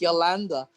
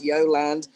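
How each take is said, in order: First: The name is pronounced the Spanish way. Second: The name is pronounced the English way. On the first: "if you want to say it in Spanish" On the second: "If you want to say it in English"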